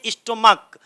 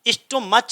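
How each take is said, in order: First: The ending is said with a 'k' sound. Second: The ending is said with a 'ch' sound. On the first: The speaker calls it right. "का का उच्चारण आएगा" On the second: The speaker calls it wrong. "स्टोमच नहीं पढ़ते"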